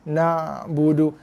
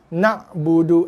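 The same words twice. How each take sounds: First: The ain sound is held slightly with a trailing tail. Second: The ain sound is cut off with a sudden stop. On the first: The speaker calls it right. "kena bunyikan lebih ekor sikit" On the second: The speaker calls it wrong. "itu makhraj ain sifat hamzah"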